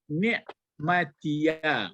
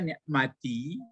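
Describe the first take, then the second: First: The word ends with an added 'ya' syllable. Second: The word ends on a short 'i' sound. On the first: "Ini karena mau disambung saja" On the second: "Ini bisa dibaca ni'mati"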